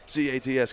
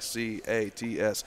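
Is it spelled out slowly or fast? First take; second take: fast; slowly. First: The letters are spelled out very fast. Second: The letters are spelled out at normal pace.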